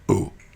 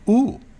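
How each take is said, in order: First: It sounds dismayed and disappointed. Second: It sounds delighted and impressed.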